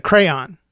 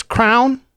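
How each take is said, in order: First: "crayon" in two syllables, cray-on; correct pronunciation. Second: Crayon squashed into one syllable, "crown"; wife's mispronunciation. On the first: Shown as a demonstration. Husband correcting wife's crown, two-syllable pronunciation. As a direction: split "crayon" clearly into cray and on. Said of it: "instead of". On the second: Retold or imitated. Husband quoting wife's word for crayon, one-syllable mispronunciation. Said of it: "She says".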